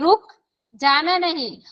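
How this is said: The stress is on रुक.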